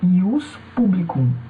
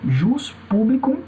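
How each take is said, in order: First: The first word begins with a Y sound. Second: The first word begins with a J sound. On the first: "como também o I" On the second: "tanto pode ser pronunciado como J"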